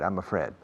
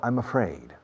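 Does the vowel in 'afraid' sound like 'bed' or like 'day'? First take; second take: bed; day. First: The second syllable has a short 'e' like 'Fred'. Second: The second syllable has the vowel of letter A. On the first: The speaker calls it wrong. "Don't say I'm a Fred" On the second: The speaker calls it right. "Aid. What's the first letter in the English alphabet? A. Afraid"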